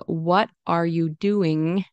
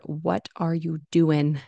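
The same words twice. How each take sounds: First: "What are you doing" slowly, each word full; full ING. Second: "What are you doing" slowly, ending "doin'"; casual IN ending. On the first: Teacher shows the careful form, full ING. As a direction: end "doing" on a clear NG. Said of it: "So instead of saying". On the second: Teacher shows what learners will hear, IN ending. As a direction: swap the NG of "doing" for N. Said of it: "you'll hear in". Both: Shown as a demonstration.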